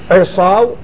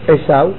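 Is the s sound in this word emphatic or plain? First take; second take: emphatic; plain. First: The s sound is an emphatic s. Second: The s sound is a plain s. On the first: It means his trees. "עיסים שלו" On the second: It is a person's name. "סמך"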